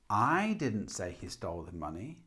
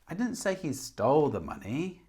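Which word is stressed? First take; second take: I; stole. First: The stress falls on the word I. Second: The stress falls on the word stole. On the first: Someone else said it. "So with I" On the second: He took it but did not steal it. "Maybe he took it but didn't steal it"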